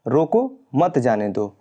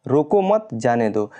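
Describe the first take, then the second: First: Slow रोको, a comma pause, then मत जाने दो; pause after रोको. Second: Slow रोको मत together, a comma pause, then जाने दो; pause after मत. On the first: Teacher reads example with comma after रोको, pausing after रोको. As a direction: break right after रोको, keep मत जाने दो together. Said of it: "पहले कामा लग गया है". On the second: Teacher reads second example with comma after मत, pausing after मत. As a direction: break right after मत, before जाने दो. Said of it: "दूसरे में मत के बाद कॉमा लगा है". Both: Shown as a demonstration.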